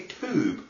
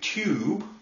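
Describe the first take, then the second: First: The word has a broad Norfolk pronunciation. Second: The word has a standard British pronunciation. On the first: "They say tube" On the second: "they don't say tube like the rest of the country"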